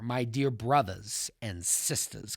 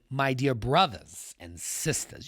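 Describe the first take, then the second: First: It is read plainly, without fervor. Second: It is read with a preacher's fervor.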